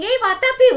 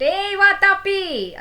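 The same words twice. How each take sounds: First: Loud, much higher quick shout; quick call. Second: Loud, much higher, slow drawn-out shout; desperate call. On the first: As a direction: snap the name out fast. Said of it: "So Ilvala kept on saying". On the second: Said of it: "And again Ilvala went". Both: Acted.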